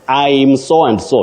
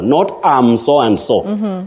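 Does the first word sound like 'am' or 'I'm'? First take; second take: I'm; am. First: The first word is pronounced like 'I'm'. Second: The first word is pronounced like 'am'. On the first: The speaker calls it right. "you say I'm" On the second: The speaker calls it wrong. "Many people innocently pronounce it as am"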